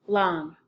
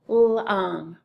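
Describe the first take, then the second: First: Said in the usual way. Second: "long" stretched as l, then ong; sounded out. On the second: Shown as a demonstration. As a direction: separate the opening l of "long" from the rest. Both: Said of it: "and the second syllable is".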